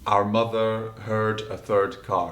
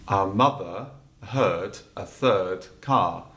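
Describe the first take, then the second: First: It is said in a Scottish accent. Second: It is said in a transatlantic accent.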